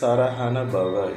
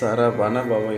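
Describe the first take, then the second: First: The third syllable starts with an h sound. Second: The third syllable starts with a v sound. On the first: This is how it should be chanted. "உச்சரிக்கும் போது சரஹண பவ என்று சொல்ல வேண்டும்" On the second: This is how it is written. "நாம் எழுதும்போது சரவண பவ என்று எழுதுவோம்"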